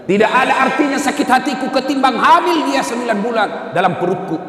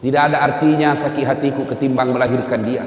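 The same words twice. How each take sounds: First: Higher, pleading mother's plea; raised pleading. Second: Said in the usual way. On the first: Acted. Mother telling the Prophet about carrying her son, raised pleading. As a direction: lift it into an anguished plea.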